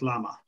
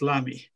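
First: The name ends in an 'ah' vowel. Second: The name ends in an 'ee' vowel. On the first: The speaker calls it wrong. "it's not Lama" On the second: The speaker calls it right. "It's Lamy, L-A-M-Y"

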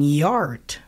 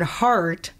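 First: The word starts with a y sound. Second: The word starts with an h sound. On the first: The speaker calls it wrong. "I was saying yart" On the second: The speaker calls it right. "when I was singing the word heart"

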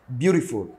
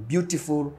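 The two takes are said the same way.

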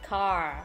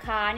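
First: The final r sound is pronounced. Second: The final r sound is dropped. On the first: "ถ้าเป็นอเมริกันต่อใส่ตัว r เข้าไปนิดนึง" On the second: "ถ้าเป็นสำเนียงอังกฤษก็คือ"

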